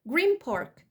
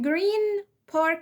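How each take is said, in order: First: The end of green is closed with the lips. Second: The end of green is a clear n sound. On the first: "بقت green park" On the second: "فكلمة green park"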